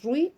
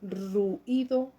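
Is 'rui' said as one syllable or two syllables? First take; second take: one syllable; two syllables. First: The 'ui' is joined into one syllable. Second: The 'u' and 'i' are split into two syllables. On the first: "Rui es una sola sílaba" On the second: "lo separo y lo convierto en un hiato"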